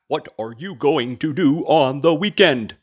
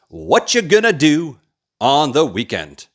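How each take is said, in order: First: Every word is said fully and separately. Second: The words are shortened and run together. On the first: The speaker calls it wrong. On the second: The speaker calls it right.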